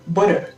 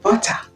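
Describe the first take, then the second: First: It is said with an American accent. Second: It is said with a British accent. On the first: "l'anglais américain dira" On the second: "l'anglais britannique dira"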